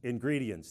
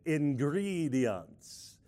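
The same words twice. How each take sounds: First: Said in the usual way. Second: Very slow, drawn-out cartoon vampire count. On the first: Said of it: "that's the word". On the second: Shown as a demonstration. Showing the congregation the word in a count-like voice. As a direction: stretch it out in a mock vampire accent. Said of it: "in a count-like voice".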